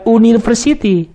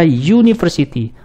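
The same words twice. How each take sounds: First: The word begins with a plain vowel sound. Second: The word begins with a 'y' sound. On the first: The speaker calls it wrong. "Bukan university" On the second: The speaker calls it right. "tapi dibaca university"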